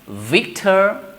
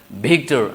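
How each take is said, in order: First: It begins with a soft fricative v sound. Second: It begins with a heavy plosive b-like sound. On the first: The speaker calls it right. "instead of we say right Victor" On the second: The speaker calls it wrong. "so we just pronounce like Victor, a kind of some heavy plosive sound"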